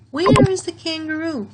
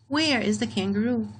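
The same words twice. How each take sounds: First: High, loud, eager question; where sung out high and loud; lively question. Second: Said in the usual way. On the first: Shown as a demonstration. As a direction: ask it with big curiosity. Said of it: "So this is a question". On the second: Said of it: "where is a word that we usually use in questions".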